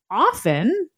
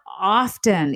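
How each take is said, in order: First: The word is said without a t sound. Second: The word is said with a t sound. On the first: The speaker calls it right. "most people today would say you pronounced the word O-F-T-E-N as often" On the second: The speaker calls it wrong. "Not often, even though historically the T was there"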